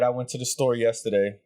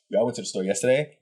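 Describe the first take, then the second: First: It is read flatly, just going through lines. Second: It is acted out with energy and pace.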